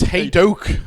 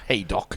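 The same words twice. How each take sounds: First: It is not said like the racecourse name. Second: It is said like the racecourse name. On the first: The speaker calls it right. "It's Haydock" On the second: The speaker calls it wrong. "He's not a racecourse"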